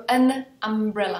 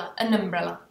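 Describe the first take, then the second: First: "an umbrella" run together as one word; linked an umbrella. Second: "an umbrella" joined, said lower; linked an umbrella repeated. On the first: Teacher showing the linked article. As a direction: glide the n straight into "umbrella". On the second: Teacher repeating the linked form. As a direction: repeat "an umbrella" as one word. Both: Shown as a demonstration. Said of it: "Proto řeknu an umbrella".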